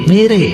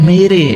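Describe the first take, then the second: The two takes are said the same way.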